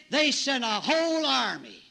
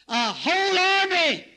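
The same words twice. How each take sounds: First: Said in the usual way. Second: Higher, louder and slower repeat; preaching emphasis. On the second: Shown as a demonstration. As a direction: hammer it home from the pulpit.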